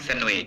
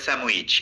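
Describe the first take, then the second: First: The consonant before the w is n, with no d. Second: The consonant before the w is m, with no d. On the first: "ডি বাদ দিয়ে আবার স্যান্ডউইচ" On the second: "আরো দ্রুত connected স্পিচে বলে স্যামউইচ, এম এম দ্বারা replace হয়ে যায়"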